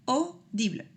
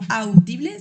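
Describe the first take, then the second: First: The first vowel is said as a plain 'oh'. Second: The first vowel is said as 'a-u', like 'ow'. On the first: The speaker calls it right. "Se pronuncia como una O" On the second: The speaker calls it wrong. "Esa A U no se pronuncia como audible"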